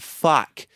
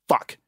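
First: The vowel is stretched out long. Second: The vowel is short and clipped. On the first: This is how American speakers swear. "they elongate the vowels" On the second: This is how British speakers swear. "British accent and Australian accent, short guttural vowels"

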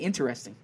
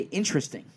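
First: Every syllable of the word is clearly pronounced. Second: The syllables are reduced and run together. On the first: "I enunciate it. I say interesting" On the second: "I think people say interesting"

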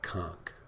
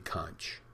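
First: The word is said the local Keys way. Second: The word is said the mainstream English way. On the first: This is how natives of the Keys say it. "in the Keys, they call it conch" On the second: This is how most English speakers elsewhere say it. "In the rest of the world, most of the places... they say conch"

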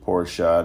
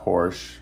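First: It is said with two syllables, ending in a vowel. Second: It is said with one syllable, ending in 'sh'. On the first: The speaker calls it right. "it is Porsche" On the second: The speaker calls it wrong. "not Porsche"

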